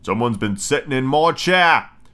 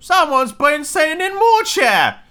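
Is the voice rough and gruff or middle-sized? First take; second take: gruff; middle-sized. First: It is said in a great, gruff, rough voice. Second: It is said in a middle-sized, ordinary voice.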